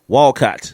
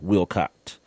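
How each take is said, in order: First: The first syllable sounds like 'wall'. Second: The first syllable sounds like 'will'. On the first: The speaker calls it right. "it's Walcott" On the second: The speaker calls it wrong. "It's not Wilcott"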